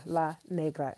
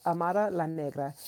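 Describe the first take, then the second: First: La said with an open ah as in father; La Negra, La spoken "lah" properly; corrected La. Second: La said with a flat a as in cat, then caught; wrong vowel in La. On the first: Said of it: "La, yeah". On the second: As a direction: Amara La Negra with La like "lah" mispronounced as "laa" in cat. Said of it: "La, no". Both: Shown as a demonstration.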